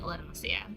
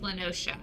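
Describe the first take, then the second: First: The name ends with a 'see-a' sound. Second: The name ends with a 'sha' sound. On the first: The speaker calls it wrong. "I've been saying that wrong" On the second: The speaker calls it right. "It's Lenosha"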